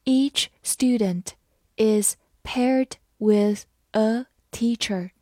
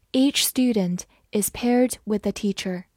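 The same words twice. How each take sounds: First: Slow, careful sentence reading; slow classroom read-aloud. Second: Said in the usual way. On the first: Shown as a demonstration. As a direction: read it slowly for learners to follow. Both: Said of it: "好，慢慢来读".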